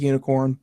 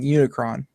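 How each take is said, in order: First: The name is said like unicorn. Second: The name is said like Unicron. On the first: The speaker calls it right. "it's pronounced like unicorn" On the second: The speaker calls it wrong. "in my head I've been saying Unicron"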